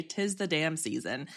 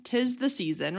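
First: Soft, low [name]; [name] quote. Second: Said in the usual way. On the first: Retold or imitated. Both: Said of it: "as [name] would say".

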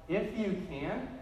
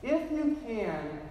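First: Slow echo with a rising end; drawn-out, mildly incredulous repeat; questioning echo. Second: Slow quoted appeal, pitched higher; drawn-out, lightly voiced appeal; father's conditional request. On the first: Retold or imitated. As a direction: hand the words back as a question. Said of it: "As if to say". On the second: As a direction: say it slowly as a request, falling at the end. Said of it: "the boy's father had said".

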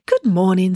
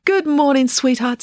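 First: Cheery morning hello; bright greeting. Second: High, loud doggy sweet talk. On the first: Loretta greets Joe brightly at dawn, cheerful. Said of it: "said Loretta brightly". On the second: Loretta greets the little dog Pumpkin, high cooing. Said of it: "bending to give the little dog a pat". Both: A narrator's reading.

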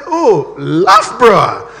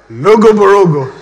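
First: LOUGHBOROUGH slowly as "LUFF-bruh"; drawn "Oh", then LOUGHBOROUGH as "luff-bruh"; correct local pronunciation. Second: LOGO BOROGO loud, every written G sounded; comic "lo-go bo-ro-go", loud and sure; naive mispronunciation. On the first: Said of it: "The man said". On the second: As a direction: say "Logo Borogo" proudly, as spelt. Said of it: "He came from one country like that". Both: Acted.

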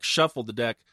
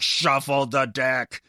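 First: Said in the usual way. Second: Louder and slow, each word pushed hard; furious emphasis. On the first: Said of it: "like, furiously". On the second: Retold or imitated. Telling listeners how he shuffled the deck, loud and forceful. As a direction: lean into it like shuffling aggressively. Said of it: "like, aggressively".

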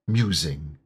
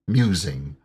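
Both takes have the same delivery.

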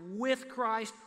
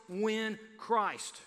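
First: "with" punched, "Christ" falling away; stress on with. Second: "when" punched, "Christ" falling; stress on when. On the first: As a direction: hit "with", let "Christ" drop. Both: Shown as a demonstration. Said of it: "The emphasis is clearly on".

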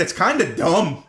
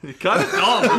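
First: Slow mocking "It's kinda dumb" with "dumb" leaned on; lazy, teasing stress on "dumb". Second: "It's kinda dumb" pitched high, "dumb" punched; squeaky teasing echo, landing on "dumb"; high playful impression leaning on "dumb"; high mock stress on dumb. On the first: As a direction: drag it out and hit "dumb". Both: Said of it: "He would emphasize the word dumb".

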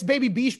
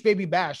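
First: "Beesh" said with a long ee; "Baby Beesh" with ee in the last word; alternate pronunciation. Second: Said in the usual way. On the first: Shown as a demonstration. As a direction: say "Beesh" to rhyme with leash. Two versions of the name.

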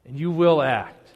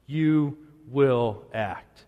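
First: Said in the usual way. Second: YOU, WILL, ACT as separate slow, weighty words; emphatic repeat. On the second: Retold or imitated. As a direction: pause between "You", "will" and "act", low and deliberate. Emphatic slowed repeat of closing line.

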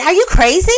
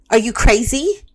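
First: Incredulous challenge. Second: Said in the usual way. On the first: Retold or imitated. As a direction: throw "Are you crazy?" back at them in disbelief. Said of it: "I ask people that". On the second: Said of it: "And I'll even".

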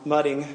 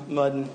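First: Mudding with the final g said clearly; mudding, crisp "-ing" ending; careful mudding with the ng sounded out. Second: Mudding said as "muddin", dropped g; mudding with the g swallowed, Southern style; mudding ending in "-in" like back home; Alabama mudding. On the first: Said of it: "I'm gonna pronounce it with a G now". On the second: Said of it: "that's what we call it in Alabama". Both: Shown as a demonstration.

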